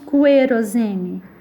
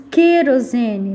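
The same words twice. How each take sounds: First: A U sound is heard after the K. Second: No U sound is heard after the K. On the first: The speaker calls it wrong. "nós não falamos querosene" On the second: The speaker calls it right. "nós falamos querosene"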